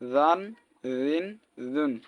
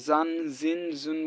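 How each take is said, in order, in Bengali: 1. ব্যঞ্জনটি নরম, লিস্প করা dh-এর মতো। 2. ব্যঞ্জনটি সাধারণ, গুনগুনে z ধ্বনি। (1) "সো জালও কিন্তু নরম হয়ে" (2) "অনেকে জান জিন জুন বলে"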